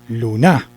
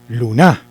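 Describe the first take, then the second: No difference in how they are said.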